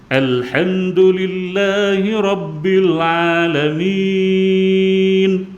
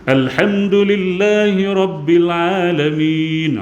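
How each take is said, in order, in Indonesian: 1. Dibaca dengan lambat dan vokal panjang. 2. Dibaca dengan kecepatan sedang. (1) "kita baca dengan enam harakat, bacaan slow" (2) "baca agak laju sedikit"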